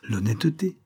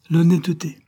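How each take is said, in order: First: Said in the usual way. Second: "L'honnêteté" thrown back much higher and louder; mocking echo. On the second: A narrator's reading. Floch scoffing at Aliette's ideal, loud and high.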